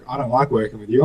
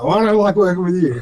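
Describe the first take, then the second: First: Said in the usual way. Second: Higher-pitched comeback with a laugh in it; mock retort. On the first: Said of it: "he was like". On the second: Son answering dad while building the car, laughing retort. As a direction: throw it back, half laughing. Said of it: "I'm like".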